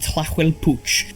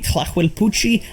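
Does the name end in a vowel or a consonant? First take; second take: consonant; vowel. First: The name ends on a consonant sound. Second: The name ends with a final vowel sound. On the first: The speaker calls it wrong. "I repeatedly call it the Tlahuelpuch" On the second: The speaker calls it right. "It's called the Tlahuelpuchi"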